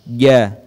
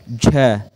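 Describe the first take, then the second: First: The consonant is said without breath flowing out. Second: Breath audibly flows out after the consonant. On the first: The speaker calls it right. "saat diucapkan tidak mengalir suara" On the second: The speaker calls it wrong. "kesalahan yang sering terjadi saat mengucapkan huruf ja, yaitu mengalirnya suara. Ja, itu keliru"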